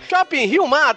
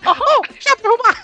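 First: It is said in a normal voice. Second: It is said in a Mickey Mouse voice.

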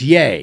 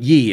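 First: The name rhymes with 'say'. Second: The name rhymes with 'see'. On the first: The speaker calls it right. "it's Yay" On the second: The speaker calls it wrong. "It's not Yee"

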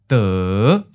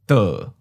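First: The pitch starts low and rises. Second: The pitch starts mid and falls. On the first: "Fifth tone, low rising" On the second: "Third tone, mid falling"

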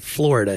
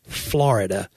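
First: It is said in a general, non-local way. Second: It is said in a local Nashville Southern way.

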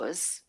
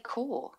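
First: The word ends with a z-like consonant sound. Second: The word ends in a vowel with no consonant. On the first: The speaker calls it wrong. "I wouldn't say" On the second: The speaker calls it right. "I would say core"

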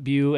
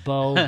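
First: The name ends in an 'oo' vowel. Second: The name ends in an 'oh' vowel. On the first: The speaker calls it wrong. "It's not Bew" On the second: The speaker calls it right. "As a guy whose real name is Bo"

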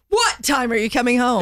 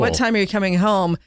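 First: It is asked in an urgent, aggressive way. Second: It is asked in a calm, normal way.

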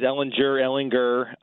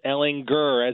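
First: The g is soft, like a j sound. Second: The g is hard, like in grr. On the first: The speaker calls it wrong. "I've heard it both ways" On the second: The speaker calls it right. "but it is Ehlinger, as in Austin Powers, baby. Gurr, baby"

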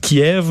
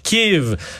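First: The name is pronounced the Russian way. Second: The name is pronounced the Ukrainian way. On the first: This is the long-used form in French. "on a dit depuis qu'on est né Kiev" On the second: This is the form newly adopted by some media. "qui est la prononciation vraiment ukrainienne"

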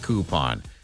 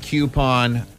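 First: The word begins with a 'koo' sound. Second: The word begins with a 'kyoo' sound. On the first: "I say coupon" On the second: "You say coupon"

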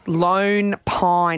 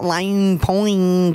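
First: The name is said in the speaker's normal accent. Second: The vowel in the first word sounds like 'lane'. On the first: The speaker calls it right. "not Lane Pine" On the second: The speaker calls it wrong. "she was trying to do an Australian accent"

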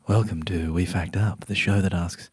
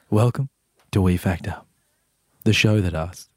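First: It is said at a normal, unpaused pace. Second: It is said slowly with added pauses.

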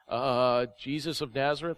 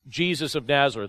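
First: It is said hesitantly, with an unsure rise. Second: It is said in a confident, plain way.

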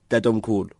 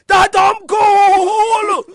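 First: It is said in a normal, quiet voice. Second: It is screamed loudly.

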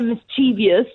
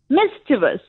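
First: An extra 'ee' sound comes before the ending. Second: No extra 'ee' sound comes before the ending. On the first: The speaker calls it wrong. "inserting an I where there is none" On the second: The speaker calls it right. "It's just mischievous"

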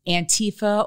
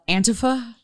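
First: The word is said the common, widespread way. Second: The word is said the Portland locals' way. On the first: The speaker calls it wrong. "they say that everybody's pronouncing it wrong" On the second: The speaker calls it right. "as my friends in Portland call it"

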